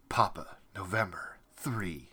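Each word ends with a full stop. This is how the written version with periods reads. The speaker calls it wrong. "putting a period after every single one"

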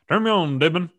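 It is said in a strange backwards-sounding voice.

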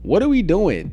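It is said in a grave, serious tone. The situation is harmful and must change. "I'm like, yo, I'm serious"

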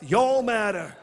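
It is said in a Southern accent.

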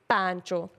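It is said the shortened Punjabi way. "if you say in the Punjabi way"

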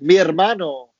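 It is said with a native Spanish accent. The speaker calls it right. "Spanish is my first language, so I should have been like"

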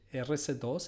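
The letters and number are spoken in Spanish. "in Spanish"

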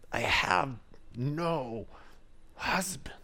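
The voice sounds sharp and irritated. She is annoyed at being asked. "Or did she say it in frustration?"

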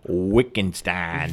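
It is said with a Hoosier accent.

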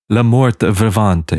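It is pronounced with an Italian-sounding accent. "That's too Italian"

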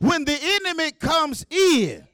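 There is a pause after 'comes in'. The Spirit of the Lord is the flood. The speaker calls it right. "got to pause right there"

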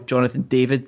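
The name is said with an English pronunciation.

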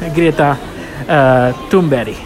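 The name is said with a Swedish pronunciation. The speaker calls it right. "esta chica es sueca. Y su nombre se pronuncia"

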